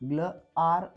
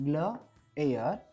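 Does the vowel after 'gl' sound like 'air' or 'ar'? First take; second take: ar; air. First: The vowel after gl sounds like ar. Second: The vowel after gl sounds like air. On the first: The speaker calls it wrong. "ग्ल आर असं म्हणू नका" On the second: The speaker calls it right. "ग्ल एअर ग्लेअर"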